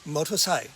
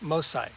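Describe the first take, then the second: First: The word is said in its full form. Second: The word is said in a shortened form. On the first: "The first one is motorcycle" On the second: "And then the short version"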